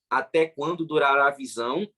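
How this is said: It ends as a question with a pause after 'visão'. The question ends there and the rest is separate. The speaker calls it right. "Aí tem uma interrogação, tá bom?"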